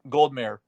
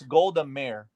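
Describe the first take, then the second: First: The name is run together as one word. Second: The name is said as two separate words. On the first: The speaker calls it wrong. "I said Goldmere like it was like compounded one one name" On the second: The speaker calls it right. "it's Golda Meir"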